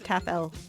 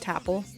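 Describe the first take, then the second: First: It is said as tap followed by letter L. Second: It is said as one word rhyming with apple.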